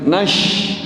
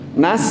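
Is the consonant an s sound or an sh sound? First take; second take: sh; s. First: The consonant is an sh sound. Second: The consonant is a plain s sound. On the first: The speaker calls it wrong. "diwaca nash menjadi shin" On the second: The speaker calls it right.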